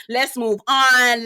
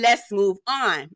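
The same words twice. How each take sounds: First: Slow "Let's move on" with a laugh, a bit louder. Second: Said in the usual way. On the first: Retold or imitated. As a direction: laugh through it, slowly. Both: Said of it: "Talene is like".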